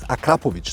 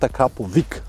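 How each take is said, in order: First: The name ends with an 'ich' sound. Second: The name ends with an 'ick' sound. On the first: This is how the name is said in its home country. The speaker calls it right. "The real name is Akrapovic ... finish on ich" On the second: This is how most Western people say the name. The speaker calls it wrong. "not Akrapovic, as most of the Western world people say"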